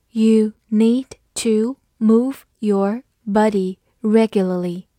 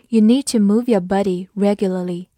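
First: Slow, each word set apart; slow read-through. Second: Said in the usual way. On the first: Shown as a demonstration. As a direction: model it slowly, word by word. (慢读一遍，一词一顿) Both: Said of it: "好，慢读一遍".

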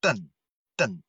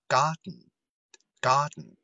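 First: "den" with a clear vowel sounded out; "den" spelled out plainly; full den syllable. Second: "Garden" very slow, den swallowed in the throat; very slow "Garden", throaty dn ending. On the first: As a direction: say "den" fully, vowel and all. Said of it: "我们读成". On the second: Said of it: "大家体会一下吧". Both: Shown as a demonstration.

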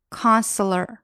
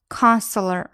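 The two takes are said the same way.

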